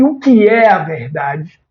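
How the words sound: It sounds like a sincere, curious question. The asker truly wants an answer. "uma entonação de quem deseja uma resposta"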